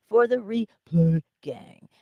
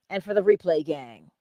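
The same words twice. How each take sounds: First: Slow, higher and louder, stretching "replay"; playfully drawn-out. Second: Said in the usual way. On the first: Real, not acted. Host hailing later viewers after a laugh, drawn-out shout-out. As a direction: drag out "replay" for fun.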